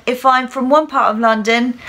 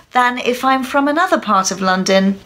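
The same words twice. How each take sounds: First: Heavy put-on Cockney London accent. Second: Highbrow put-on Oxbridge English; Oxbridge accent. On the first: Teacher showing one part of London, heavy Cockney accent. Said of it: "I went from the heavier Cockney London accent". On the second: Teacher showing another part of London, highbrow Oxbridge accent. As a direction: switch to a higher-brow Oxbridge accent. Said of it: "to a much higher brow Oxbridge accent". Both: Shown as a demonstration.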